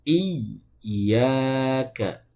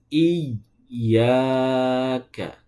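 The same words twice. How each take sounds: The two takes are said the same way.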